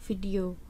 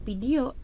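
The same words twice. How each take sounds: First: The word is said with a v sound. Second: The word is said with a p sound. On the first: The speaker has learned the standard pronunciation. The speaker calls it right. "tapi adalah video" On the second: The speaker has not learned the standard pronunciation. The speaker calls it wrong. "bukan video"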